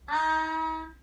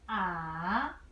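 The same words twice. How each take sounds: First: The pitch stays high and level. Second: The pitch starts low, dips, then rises. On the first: "This one" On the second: "Third tone. You start from low position"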